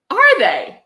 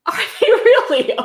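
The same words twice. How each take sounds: First: High, sarcastic "are they?"; sarcastic mock disbelief, pitched up; mock surprise. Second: Laughing, much higher, sarcastic "really"; disbelieving laugh at the book; mock surprise. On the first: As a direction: feign shock, dripping sarcasm. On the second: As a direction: pretend astonishment through a laugh. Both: Real, not acted. Sarcastic reply to book's claim.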